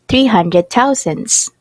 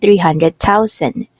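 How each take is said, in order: First: The word ends with an added s sound. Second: The word ends without an s sound. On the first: The speaker calls it wrong. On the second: The speaker calls it right.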